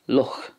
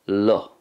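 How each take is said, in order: First: The final sound is clearly heard. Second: The final sound is nearly silent. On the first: "as is the way it's pronounced in the Munster dialect" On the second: "in Ulster there's kind of a more silent sound at the end"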